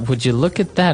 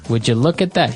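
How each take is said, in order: First: It sounds embarrassed and surprised. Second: It sounds sarcastic and mocking.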